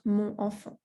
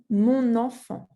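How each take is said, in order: First: No N sound links the two words. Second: An N sound links the two words. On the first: The speaker calls it wrong. "and not mon enfant" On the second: The speaker calls it right. "You have to say mon enfant"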